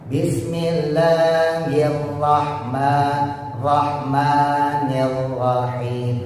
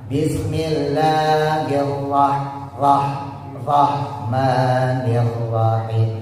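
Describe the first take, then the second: Both takes have the same delivery.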